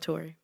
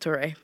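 First: The final vowel is said as a plain vowel. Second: The final vowel is said as an accented e. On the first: The speaker calls it wrong. "not Tori" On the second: The speaker calls it right. "His name is Tori"

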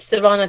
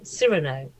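First: The name is said in a non-American way. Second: The name is said in an American way. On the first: "I say Serrano" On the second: "the Americans tend to say Cyrano"

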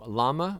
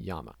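First: The word begins with an L sound. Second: The word begins with a Y sound. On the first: This is the form that came from a mistake. The speaker calls it wrong. "a series of mistakes that have happened in science over time that have led us to" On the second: This is the original form from the local language. The speaker calls it right. "when actually we should be saying"

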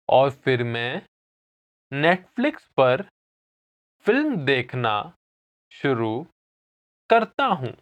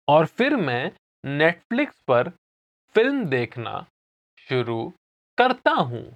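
First: It is said slowly. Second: It is said at normal speed.

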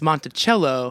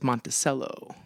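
First: It is said with the standard pronunciation. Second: It is said with the local town pronunciation. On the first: The speaker calls it right. "They say it wrong. It's Monticello" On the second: The speaker calls it wrong. "everybody there says Monticello"

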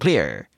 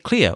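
First: The word is said in an American accent. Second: The word is said in a non-American accent. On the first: "Or if you're American, clear" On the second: "Now say clear"

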